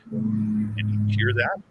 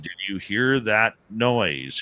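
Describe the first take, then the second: First: Slow, drawn-out question, pitched up; astonished question. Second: Slow, spaced-out question, pitched up; insistent repeat. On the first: Dave asks Merle about the chatter, slow astonished question. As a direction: stretch the words out, rising on THAT. Asking companion about strange noise. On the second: Dave repeats his question to Merle, slow and insistent. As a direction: spell it out word by word, falling on NOISE. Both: Retold or imitated.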